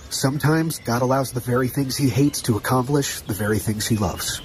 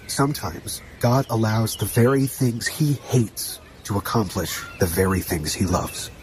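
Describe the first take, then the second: First: It is said at a normal speed. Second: It is said more slowly.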